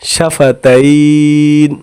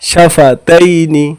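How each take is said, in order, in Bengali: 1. শব্দটি ব্যঞ্জনবর্ণ 'n' দিয়ে শেষ হয়েছে। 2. শব্দটি একটি হ্রস্ব 'i' স্বরধ্বনি দিয়ে শেষ হয়েছে।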